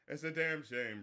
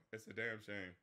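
First: Said in the usual way. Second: Much lower and softer, almost under the breath; "It's a damn shame" said low and soft, trailing away; quiet. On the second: Real, not acted. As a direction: let the repeat sink into a sigh. Repeated lament, dropped low.

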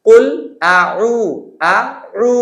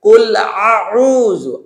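First: আ light as hamza, উ pressed as ain; correct reading. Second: আউযু with both vowels pressed as ain; wrong reading. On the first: Teacher shows the correct Qur'an recitation, hamza then ain. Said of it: "প্রথমটা হামজা, সেকেন্ডটা আইন". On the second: Teacher imitates a beginner's mistake, overly throaty. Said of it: "দুইটাই আইন বানাই ফেলে". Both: Shown as a demonstration.

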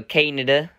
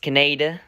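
First: Kaneda as KAN-uh-duh, first syllable stressed; alternative pronunciation. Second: Kaneda as kuh-NAY-duh, middle syllable stressed; original dub pronunciation. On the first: Offering viewers another version, Kaneda stressed up front. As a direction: say Kaneda almost like "Canada". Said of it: "or something like that". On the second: Showing viewers the original dub's name, Kaneda as kuh-NAY-duh. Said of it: "The original dub, it's pronounced". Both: Shown as a demonstration.

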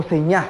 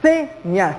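First: "señas" said as seÑAS, force on the end; stress on last syllable. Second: "Señas" with SE held and stressed, ñas lighter; stress on first syllable. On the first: Teacher tests a wrong stress for students, last syllable stressed. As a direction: shift the stress in "señas" onto ÑAS. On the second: Teacher tests where the stress falls, first syllable stressed. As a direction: put the force on SE in "Señas". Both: Shown as a demonstration. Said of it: "Hagamos la prueba".

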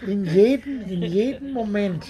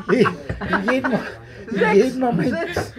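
First: Said in the usual way. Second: Slow, higher, through laughter; laughing. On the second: Real, not acted. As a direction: stretch "in jedem Moment" out while laughing. Repeats phrase while laughing.

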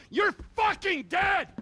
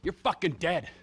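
First: Much higher, yelled death threat; screaming the threat; furious shout. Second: Said in the usual way. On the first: Acted. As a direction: explode on the repeat. Second threat escalates.

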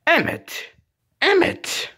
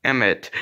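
First: Very high pretend name call; insistent calling. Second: Said in the usual way. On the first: Calling Emmett until he answers, insistent calling. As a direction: call it pitched far up.

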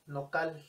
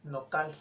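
First: "nocal" ending in a breathy, blown L; voiceless final L. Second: "nocal" with the last L just blown air; voiceless final L. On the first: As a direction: let the final L of "nocal" hiss out like an S. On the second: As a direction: breathe out the L at the end of "nocal". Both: Shown as a demonstration. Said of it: "una L que sopla".

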